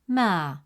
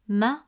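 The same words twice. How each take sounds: First: The vowel is stretched out long. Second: The vowel is short and clipped. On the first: The speaker calls it right. "the presence of alif makes it ma" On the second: The speaker calls it wrong. "Instead of pronouncing it as ma"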